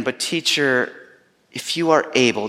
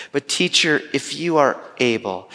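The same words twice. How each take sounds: First: Mildly broken father pleading with the teacher; broken plea. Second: A slightly lifted, hopeful plea; father pleading with the teacher, a touch hopeful; flicker of hope. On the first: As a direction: ask it as a man who has almost given up. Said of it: "in the midst of all of his brokenness". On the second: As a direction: let a small spark of hope in. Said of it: "just a little flicker of hope". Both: Retold or imitated.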